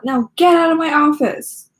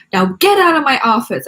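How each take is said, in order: First: Higher, louder grumpy bark; grumpy order. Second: Louder grumpy dismissal; grumpy order. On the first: Teacher dismissing Nikki from his office, grumpy and loud. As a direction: throw her out of the office. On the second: Teacher dismissing Nikki again, grumpy and loud. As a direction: shoo her out of the office. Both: Acted.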